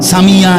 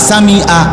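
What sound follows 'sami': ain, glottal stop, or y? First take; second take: y; glottal stop. First: The word ends with a y sound. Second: The word ends with a glottal stop. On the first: "Samia এটা তো ইয়া, তো এটা কি হলো?" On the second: "আপনি তো বললেন হামজা"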